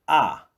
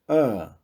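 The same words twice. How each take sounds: First: The vowel is said with an open mouth. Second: The vowel is said closed, further back. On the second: "modificam para o som fechado"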